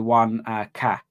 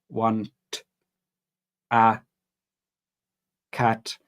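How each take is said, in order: First: It is said at a normal, quick pace. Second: It is said slowly and carefully, word by word. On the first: "So normally you say" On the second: "So slow down"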